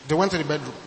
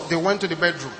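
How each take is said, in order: Both takes have the same delivery.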